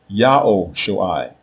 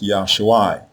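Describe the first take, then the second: First: The name starts with a 'Yao' syllable. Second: The name starts with a short 'Ya' syllable. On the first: The speaker calls it right. "It is pronounced Yao Shoai" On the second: The speaker calls it wrong. "it is not pronounced Yashuai"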